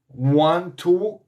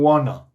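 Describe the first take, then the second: First: Both words are pronounced fully and separately. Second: The words are blended into one reduced word.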